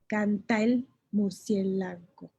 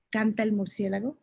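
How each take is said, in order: First: Canta el murciélago said slowly, canta and el joined; slow demo of the sinalefa; slow syllable count. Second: Said in the usual way. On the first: Shown as a demonstration. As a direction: tap out each syllable slowly. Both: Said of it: "Son cinco sílabas al oído".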